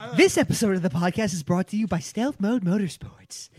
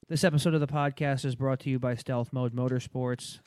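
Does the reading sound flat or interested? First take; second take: interested; flat. First: It is read with an interested, lively tone. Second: It is read in a flat monotone.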